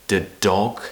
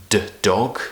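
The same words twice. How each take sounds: No difference in how they are said.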